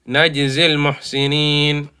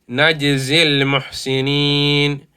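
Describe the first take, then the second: First: The vowel is cut short and joined straight on. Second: The vowel is cut short and joined straight on.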